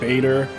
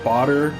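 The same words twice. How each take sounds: First: The name rhymes with Vader. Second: The name does not rhyme with Vader. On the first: "a one letter off from Lord Vader" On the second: "I was pronouncing it Bader"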